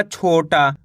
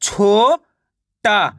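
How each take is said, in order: First: Said in the usual way. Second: छोटा split as छो, pause, टा; छोटा slowly sounded out; syllable by syllable. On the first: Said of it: "मिलके बन जाएगा". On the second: Shown as a demonstration. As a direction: stretch छो upward, then say टा alone. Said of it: "एक अक्षर का उच्चारण करके".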